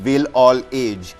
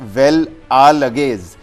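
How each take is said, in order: First: The name starts with 'will', like 'will all age'. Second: The name starts with 'well', run together as one. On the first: It is how an English reader would say it. "the English pronunciation would have been" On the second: It is how the name is actually said.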